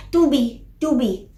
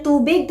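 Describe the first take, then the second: First: "tubi" with the final g left off; small child's "tubi", twice; final consonant dropped. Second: Said in the usual way. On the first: Shown as a demonstration. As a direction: toddler asking, "tubi" ending on the vowel. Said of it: "tas ang nasasabi lang nila". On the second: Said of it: "kapag humihingi sila ng tubig".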